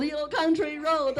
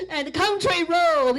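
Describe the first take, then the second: First: Said in the usual way. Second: Said through laughter, slow and loud; laughing fondly at the song title. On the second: Real, not acted. Laughing while naming the song.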